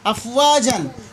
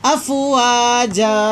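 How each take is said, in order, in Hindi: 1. शब्द 'an' की ध्वनि पर खत्म होता है। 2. शब्द लंबी 'a' की ध्वनि पर खत्म होता है। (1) "असल में वहां पर क्या है? अफवाजन" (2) "अफवाजन का वक्फ क्या होगा? अफवाजा"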